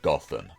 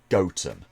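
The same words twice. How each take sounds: First: It uses the common, widespread pronunciation. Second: It uses the local English village pronunciation. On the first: This is how people usually say the Batman city. The speaker calls it wrong. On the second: This is how the original village name is said. The speaker calls it right. "The village in England that the name derives from is pronounced"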